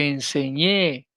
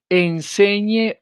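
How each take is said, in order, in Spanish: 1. La acentuación recae en la última sílaba. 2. La acentuación recae en la penúltima sílaba.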